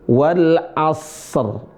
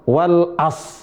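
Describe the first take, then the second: First: The phrase ends on a bare r sound. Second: The phrase ends on s with no r. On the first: The speaker calls it right. "roknya sukun" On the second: The speaker calls it wrong. "Bukan wal as"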